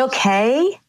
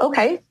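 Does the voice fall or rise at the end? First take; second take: rises; falls. First: The voice rises at the end. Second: The voice falls at the end. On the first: A question is being asked. "as opposed to" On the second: A statement is being made. "it's a completion, just like this"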